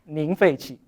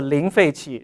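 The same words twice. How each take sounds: First: The first word begins with an N sound. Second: The first word begins with an L sound. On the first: The speaker calls it wrong. "for Fujian people, they may pronounce it as" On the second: The speaker calls it right. "It starts from uh, with L"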